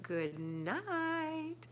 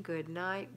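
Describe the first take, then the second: First: High, drawn-out sing-song good night; playful high goodnight. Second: Said in the usual way. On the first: Shown as a demonstration.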